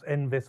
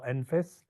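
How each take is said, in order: First: The middle consonant is a v sound. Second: The middle consonant is an f sound. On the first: The speaker calls it right. "it's pronounced ENVIS" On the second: The speaker calls it wrong. "and not ENFIS"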